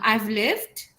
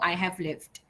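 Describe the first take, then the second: First: The first two words are shortened into one syllable. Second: The first two words are said as separate syllables. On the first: "if you want to pronounce it that way" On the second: "full form"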